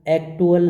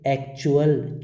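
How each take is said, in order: First: The middle consonant is a plain 't' sound. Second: The middle consonant is a 'ch' sound. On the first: The speaker calls it wrong. "इसको हम एक्टुअल नहीं कहेंगे" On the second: The speaker calls it right. "क्या कहेंगे, एक्चुअल"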